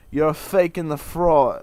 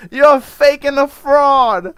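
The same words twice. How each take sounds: First: Slow, louder Italian American mock accent, laughing; Livia Soprano voice. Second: Slow, much higher, much louder Italian American screech; Livia Soprano voice. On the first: Mocking his half-sister in an Italian American accent. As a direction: sneer it like an old Italian American mother. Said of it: "I said it like, uh, Olivia Soprano". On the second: Retold or imitated. Mocking his half-sister in a shrieking Italian American accent. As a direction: wail it like an outraged Italian American mother. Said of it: "I said it with her accent".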